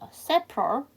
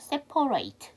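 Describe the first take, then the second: First: The final syllable is a reduced 'it' sound. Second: The final syllable is a full 'ate' sound. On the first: It is used as an adjective meaning distinct. "별개의라는 형용사로 쓰이게 되면요. separate예요" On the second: It is used as a verb meaning to divide. "동사 별개로 하다, 나누다가 되면 separate가 되죠"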